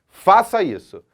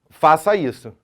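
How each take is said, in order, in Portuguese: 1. É dita como uma exclamação. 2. É dita como uma afirmação simples. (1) "num aspecto exclamativo" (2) "num aspecto afirmativo"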